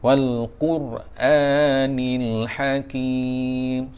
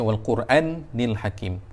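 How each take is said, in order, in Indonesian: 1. Vokal setelah hamzah panjang. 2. Vokal setelah hamzah pendek. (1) "panjangkan dua harakat" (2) "jangan baca"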